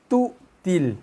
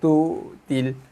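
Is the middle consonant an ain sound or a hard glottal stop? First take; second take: glottal stop; ain sound. First: The middle consonant is a hard glottal stop. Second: The middle consonant sounds like a throaty ain. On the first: The speaker calls it right. "So Hamzah tu keras" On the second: The speaker calls it wrong. "Kalau baca tu til, lagilah kita tukar ain"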